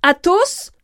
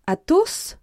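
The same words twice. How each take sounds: First: Loud, high, rising call; cry of recognition. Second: High, rising appeal without shouting; dismay. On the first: D'Artagnan recognising his friend mid-fight, loud surprised cry. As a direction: cry out the name in astonishment. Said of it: "jetèrent chacun un cri". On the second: D'Artagnan wringing his hands, dismayed high appeal. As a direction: plead with a friend through his name. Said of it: "en se tordant les mains". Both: A narrator's reading.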